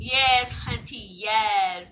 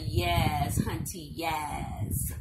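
First: Louder, punchier sassy praise; sassy hunty talk. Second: Low, drawn-out sassy praise; a touch of sassy diva approval; sassy hunty talk. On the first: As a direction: belt the praise like a diva. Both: Acted. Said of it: "when I be talking like that".

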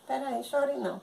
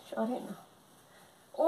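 First: Said in the usual way. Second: Very slow, soft lullaby hush; drawn-out comforting shush; soothing hush. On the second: Acted. Mother soothing her crying baby, very slow and soft.

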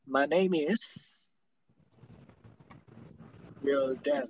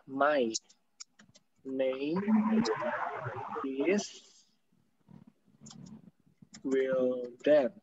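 First: "My name is" run together; joined English words; linked words. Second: Very slow, each word apart and soft. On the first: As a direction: blend "name is" into one flowing "neimi". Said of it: "Ketemu konsonan bisa digabung". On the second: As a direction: pause between "My", "name", "is", "Wildan". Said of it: "ini pronunciation-nya kan gini ya". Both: Shown as a demonstration.

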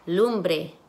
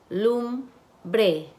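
First: Said in the usual way. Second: Lumbre split as "lum... bre" with a pause; syllable by syllable. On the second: Shown as a demonstration. Teacher blending syllables for students, syllable by syllable. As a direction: break Lumbre into two separate syllables. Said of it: "van a segmentar sílabas".

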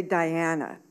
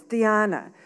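First: "Diana" said English-style, dye-AN-uh; English pronunciation. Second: "Diana" said Spanish-style, dee-AH-nah; Spanish pronunciation. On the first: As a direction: say "Diana" with eye and flat a vowels. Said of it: "my teachers always say". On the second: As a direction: say "Diana" with ee and open ah vowels. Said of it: "use Spanish pronunciation". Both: A narrator's reading.

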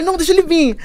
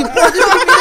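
First: A lighter, more casual dare; calmer dare. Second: Higher, louder, hammed-up challenge; tough-girl dare. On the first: Tossing off the dare to friends, casually. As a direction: say it like you don't care. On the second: Squaring up to the man who followed her, hammed-up tough dare. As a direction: call him out like a street fighter. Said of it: "aí eu já mudo a postura". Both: Shown as a demonstration.

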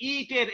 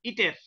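First: ইটের-এ প্রথম ই টেনে লম্বা করা; ইটের শব্দের ই ধরে রেখে বলা; ভুল দীর্ঘ ই. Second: Said in the usual way. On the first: Shown as a demonstration. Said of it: "এরকম বলি না". (ইটের-এর ই দীর্ঘ করে দেখানো) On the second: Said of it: "ইটা কি তখন রস্ব হয়ে গেল".

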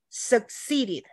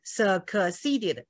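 First: Succeeded as slow suk-SEE-ded; succeeded in three syllables, no extra kuh; swallowed k. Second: Succeeded as slow suh-kuh-see-ded; succeeded with an extra vowel after the k; wrong pronunciation demo. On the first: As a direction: say succeeded with the k unreleased before see. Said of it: "这不对哈". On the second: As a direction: release the k in succeeded as its own kuh syllable. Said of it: "没办法这样念". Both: Shown as a demonstration.

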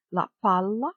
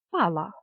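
First: "палла" with a long held L; double L. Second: Said in the usual way. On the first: Shown as a demonstration. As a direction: linger on the L in "палла". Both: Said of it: "з однією або подвоєною літерою".

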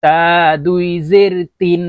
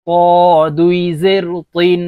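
First: তা and তিন with a light, thin t. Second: ক said as a long, heavy, rounded to, তিন as thick toin. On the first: Teacher modelling for learners, তা with a thin t. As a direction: keep the t in তা and তিন light, vowel long. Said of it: "আমি কিভাবে আপনাদেরকে বলে দিচ্ছি". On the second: Teacher modelling for learners, ক as a thick, emphatic to. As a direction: fill the mouth for ক, a heavy t. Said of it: "ত মোটা করে". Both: Shown as a demonstration.

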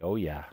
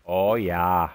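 First: Said in the usual way. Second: Drawn-out Canadian "oh, yah"; slow, rounded Canadian accent. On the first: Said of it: "That's my Canadian". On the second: Acted. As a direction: stretch it out in a put-on Canadian accent. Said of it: "That's my Canadian, by the way".

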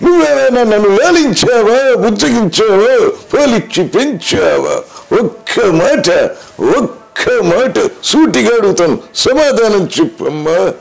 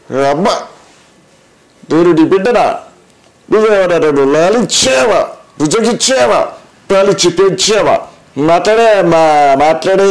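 First: High, slow, grand dramatic film voice; Karna questioning mother. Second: Higher, pleading film-hero son asking his mother; Akkineni Nageswara Rao. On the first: Acted. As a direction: demand an answer like Karna on screen, high and drawn out. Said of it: "కర్ణుడిగా తన తల్లిని ప్రశ్నించే dialogue". (కర్ణుడిలా నెమ్మదిగా, ఎత్తైన గొంతుతో నాటకీయంగా) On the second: Retold or imitated. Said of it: "Akkineni Nageswararao గారు". (అక్కినేని శైలిలో తల్లిని వేడుకునే గొంతు)

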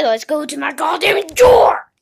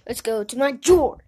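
First: Loud, breathy whispered yell on drawer; hiss-shout it in frustration; a furious shouted whisper; angry whisper-shout. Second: Said in the usual way. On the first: Acted. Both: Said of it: "I said".

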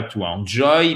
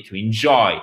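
First: "enjoy" starting with a nasal French "an"; mispronounced, Frenchified "to enjoy"; wrong French-style enjoy. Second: "to enjoy" as "to in-JOY"; light "in", strong "JOY" in enjoy; stress on second syllable. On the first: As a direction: say "to enjoy" as "to an-joy". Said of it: "C'est pas to enjoy". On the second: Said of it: "Accent tonique sur la deuxième". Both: Shown as a demonstration.

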